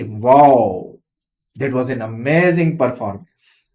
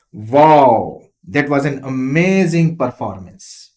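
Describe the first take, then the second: First: A milder wow, amazing less stressed; lesser stress. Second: Loud, low wow with a strong stress on amazing; strong emphasis. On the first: Teacher showing a full stop instead, milder stress. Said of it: "lesser stress". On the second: Teacher showing an exclamation mark, loud emphatic wow. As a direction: exclaim wow with full force. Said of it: "You see the emphasis, the level of emphasis". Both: Shown as a demonstration.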